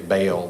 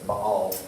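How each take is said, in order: First: The name is said with a Southern drawl. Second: The name is said with a standard pronunciation. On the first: The speaker calls it wrong. "if you're from the South, you say Baal" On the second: The speaker calls it right. "but it's Baal"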